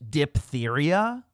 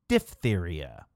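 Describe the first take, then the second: First: The 'ph' is said with a P sound. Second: The 'ph' is said with an F sound. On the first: The speaker calls it wrong. "is not pronounced diphtheria" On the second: The speaker calls it right. "the pH makes the voiceless labiodental fricative F sound"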